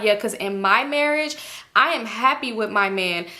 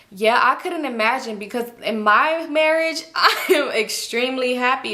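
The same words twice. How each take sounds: First: Smug, self-satisfied quote; Janet's smug voice. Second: Slow, smug, laughing; smug boast. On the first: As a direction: say it pleased with yourself. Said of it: "And she like". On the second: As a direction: boast about it. Imitating Janet's boast. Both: Retold or imitated.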